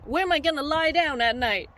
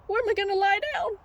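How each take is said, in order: First: Said in the usual way. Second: High, fast mock-panicked sheep; freaking out. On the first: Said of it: "the sheep are like". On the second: Sheep with nowhere to sleep, high hurried mock panic. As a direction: rush the question in comic alarm. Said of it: "the sheep be all freaking out".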